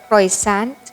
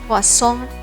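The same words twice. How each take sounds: First: The R and T sounds are pronounced. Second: The R and T sounds are dropped. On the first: The speaker calls it wrong. "A lot of people still conveniently say this as croissant" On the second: The speaker calls it right. "drop the R and T sound and say it as croissant"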